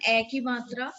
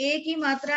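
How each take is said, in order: First: "A" an open "eh", as in Hindi ai; Hindi ai vowel. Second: First "A" a closed "ay", as in Hindi e; Hindi e vowel. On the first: Teacher likening grave to Hindi matra, open vowel. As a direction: say "A ki matra" with a wide "eh". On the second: Teacher likening aigu to Hindi matra, closed vowel. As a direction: say "A ki matra" with a tight "ay". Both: Shown as a demonstration. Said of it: "Like similar in Hindi".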